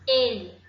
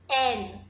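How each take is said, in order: First: The first vowel is a closed e sound. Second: The first vowel is an open e sound. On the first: It is the pronoun meaning he. "fechado, o som do E sai fechado" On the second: It is the name of the letter L. "o som do E sai aberto"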